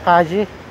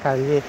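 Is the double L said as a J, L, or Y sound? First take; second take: J sound; L sound. First: The double L is said as a J sound. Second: The double L is said as an L sound. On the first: Some people here read it this way. "basa nila Kaji. Kaji, parang J" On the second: This is how locals back home read it. "Sa atin magbasa niya Calle"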